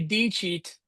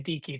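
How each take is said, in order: First: The middle consonant is a soft 'ch' sound. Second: The middle consonant is a hard 'k' sound. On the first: This is the church-style way of saying it. The speaker calls it wrong. "don't say D cheat" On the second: This is the classical way of saying it. The speaker calls it right. "like a hard C sound, like a k sound"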